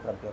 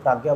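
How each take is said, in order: First: प्रज्ञा with a short first a; short first vowel. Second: प्राज्ञा with a long aa; long first vowel. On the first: Teacher showing the other way some people say it, short-vowel प्रज्ञा. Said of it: "कुछ लोग प्रज्ञा बोलते हैं". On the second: Teacher showing one way some people say it, long-vowel प्राज्ञा. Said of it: "कुछ लोग प्राज्ञा बोलते हैं". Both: Shown as a demonstration.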